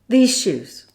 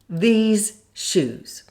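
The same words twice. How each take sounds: First: The phrase is said quickly and run together. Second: The phrase is said slowly and carefully. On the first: "Now speed it up" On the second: "Say it slowly"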